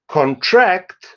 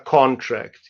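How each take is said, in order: First: The stress is on the second syllable. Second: The stress is on the first syllable. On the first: It is used as a verb. "you can contract" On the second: It is used as a noun. "you sign a contract"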